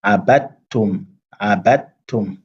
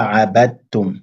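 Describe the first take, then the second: First: "Abattum" with no d, the t doubled straight away; slow "Abattum", d swallowed into the t; "Abattum" with a doubled t, no dal; d merged into t. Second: "abattum" with the d still heard before the t; "abattum" pronounced as abad-tum, incorrectly; wrong d sounded. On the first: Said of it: "directement la liaison avec le ta". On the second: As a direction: show the error of sounding the d in "abattum". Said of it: "On dit pas". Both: Shown as a demonstration.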